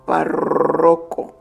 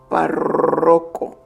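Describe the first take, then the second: First: The emphasis falls on the R sound. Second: The emphasis falls on the R sound.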